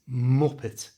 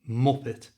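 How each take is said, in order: First: The stress is on the first syllable. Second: The same.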